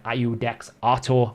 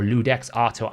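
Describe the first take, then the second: First: "Iudex Artor" begun with a vowel sound, no L; unsure name pronunciation. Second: "Ludex Artor" begun with an L sound; alternative name pronunciation. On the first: Host asking viewers about the champion, unsure name pronunciation. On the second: Host offering another guess at the champion's name, alternative pronunciation. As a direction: say "Ludex Artor" with a clear initial L. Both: Real, not acted. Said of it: "I'm probably saying it wrong".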